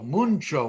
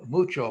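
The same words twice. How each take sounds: First: There is an N sound before the CH. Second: There is no N sound before the CH. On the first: This is how Ladino speakers say it. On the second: This is the standard Spanish form.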